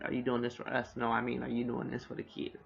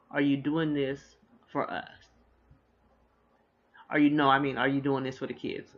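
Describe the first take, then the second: First: Said in the usual way. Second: A light take on Dean's halting question; imitating Dean. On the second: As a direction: replay the husband stumbling mid-question. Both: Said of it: "That's exactly how he said it".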